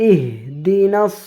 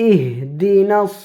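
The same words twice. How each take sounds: The two takes are said the same way.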